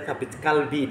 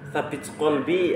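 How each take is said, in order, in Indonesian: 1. Vokal pertama kata kedua terdengar seperti a. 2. Vokal pertama kata kedua terdengar seperti o.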